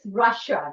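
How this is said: It is pronounced the English way. The speaker calls it right. "in English, it is Russia"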